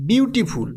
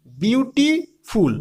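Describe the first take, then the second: First: Said in the usual way. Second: বিউটিফুল said very slowly, split into বিউটি and ফুল; syllables spelled out. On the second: Shown as a demonstration. Teacher to students, sounding out বিউটিফুল slowly by syllable. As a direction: stretch out বিউটিফুল so each syllable is heard. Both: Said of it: "আমরা যদি উচ্চারণ করে দেখি".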